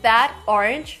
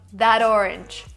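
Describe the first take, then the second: First: The word that ends in a clear T sound. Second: The T turns into a D linking the words.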